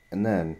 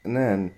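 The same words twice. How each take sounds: The two takes are said the same way.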